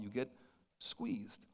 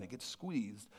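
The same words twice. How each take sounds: First: Whispered, breathless "squeezed". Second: Soft. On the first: Repeated refrain, whispered. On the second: Repeated refrain, softer. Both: Acted.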